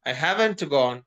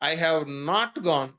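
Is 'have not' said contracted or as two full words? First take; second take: contracted; full. First: Have and not are joined into one contracted word. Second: Have and not are said as two full words.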